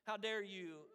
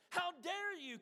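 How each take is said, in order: First: Said in the usual way. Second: A mock shout of outrage, higher. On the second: King Canute rebuking the waves, mock shout. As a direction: rebuke the sea, indignant. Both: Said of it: "Canute shouted".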